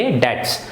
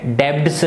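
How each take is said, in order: First: डेट्स said with the b silent, like dets. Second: डेब्ट्स with the b sounded, as the wrong way; wrong pronunciation. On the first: Teacher giving children the right reading, b silent. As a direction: say डेट्स, no b at all. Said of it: "तो क्या बोलेंगे?". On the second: Teacher showing the wrong reading of debts, b sounded. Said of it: "देखिए इसको डेब्ट्स नहीं पढ़ेंगे". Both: Shown as a demonstration.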